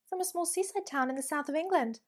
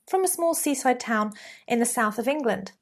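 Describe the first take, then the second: First: The pitch rises at the end of the statement. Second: The pitch falls at the end of the statement. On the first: The speaker sounds unsure and lacking confidence. The speaker calls it wrong. "with Uptalk, it'll sound like this" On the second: The speaker sounds sure and confident. The speaker calls it right. "Fine, standard, falling intonation at the end of those statements"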